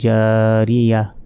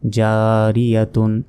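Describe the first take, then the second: First: The word ends with a soft h sound. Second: The word ends with a t sound and -un. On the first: The reader stops on this word. "গোলতার এখানে থামলে এখানে ছোট হার উচ্চারণ হবে" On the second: The reading continues without stopping. "তা দুই পেশ তুন"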